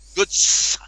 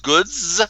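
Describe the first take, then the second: First: The word ends with a hissing S sound. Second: The word ends with a buzzing Z sound. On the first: This is how the spelling suggests it should sound. "not goods" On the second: This is how the word is actually said. "well the sound is a Z"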